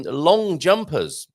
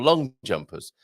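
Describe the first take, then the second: First: "long jumpers" with the weight on "long", said as one compound; "long jumpers" run together, "long" carrying the stress. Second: "long" said slowly, then a break and a falling "jumpers"; "long … jumpers" split apart, the drop landing on "jumpers"; stress on jumpers. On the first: Host jokes about athletes, stressing "long". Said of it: "it does change depending on where you put the emphasis". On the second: Host jokes that the jumpers are tall, splitting the words. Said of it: "depending on where you put the emphasis". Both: Shown as a demonstration.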